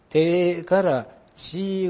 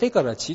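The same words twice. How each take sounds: First: The vowels of te and chi are stretched long. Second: The vowels of te and chi are kept short. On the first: This is the Kansai way of saying it. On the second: This is the standard way of saying it.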